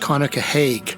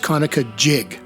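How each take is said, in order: First: The name is said the way outsiders say it. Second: The name is said the way locals say it. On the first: The speaker is not from the region. "pronounced Conococheague by non-natives of the region" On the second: The speaker grew up in the region. "to modern-day folks who grew up in the territory it drains"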